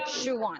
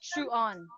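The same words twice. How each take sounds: First: A w sound links the two words together. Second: The two words are said without a linking w. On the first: The speaker calls it right. "there is a w sound in between" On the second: The speaker calls it wrong. "It's not shoe on, right?"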